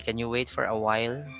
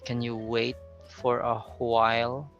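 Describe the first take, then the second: First: The word 'while' starts without a puff of air. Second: The word 'while' starts with a puff of air. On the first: The speaker calls it wrong. "it's easier to say" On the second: The speaker calls it right. "it sounds better if you say"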